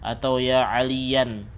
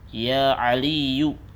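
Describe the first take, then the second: First: The name ends with an an sound. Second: The name ends with a plain u sound. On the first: The speaker calls it wrong. "juga salah" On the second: The speaker calls it right. "Tapi apa? Ya Aliyu"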